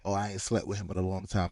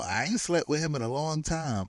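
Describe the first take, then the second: First: Low-key, softer mocking echo; dismissive parroting. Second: Higher-pitched imitated denial; mock-earnest denial in a raised pitch; retold protest. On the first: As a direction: parrot a tired excuse, unconvinced. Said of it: "that's what they all say". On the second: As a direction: imitate someone protesting innocence. Retells his denial of sleeping together.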